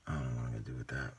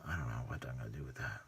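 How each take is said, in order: First: Said in the usual way. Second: Quick unvoiced whisper to himself; whispered musing over the model. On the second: Real, not acted. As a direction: breathe it out as a fast whisper.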